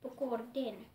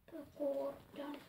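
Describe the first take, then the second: First: "Pukorden" said firmly, ending in -den; corrected reading. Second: Slow, halting "Pukordon" read letter by letter; unsure reading. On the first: Correcting her reading of the title for viewers, firmly. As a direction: settle on "Pukorden" with a firmer voice. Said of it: "Jotenkin silleen laustaa". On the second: Reading a Swedish chapter title to viewers, slow and unsure. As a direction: sound out "Pukordon" slowly, unsure. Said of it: "Mä en osaa Pukordon". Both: Shown as a demonstration.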